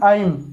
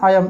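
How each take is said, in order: First: The word is said as one short syllable. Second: A glide splits the word into two syllables. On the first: The speaker calls it wrong. "ये नहीं कि आइम" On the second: The speaker calls it right. "इसको बोलते हैं आयम"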